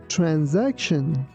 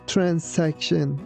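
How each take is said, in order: First: The middle letter is said as a Z sound. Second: The middle letter is said as an S sound. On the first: The speaker calls it right. "letter S sounds like Z, not S. ... we say transaction" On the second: The speaker calls it wrong. "We don't say transaction"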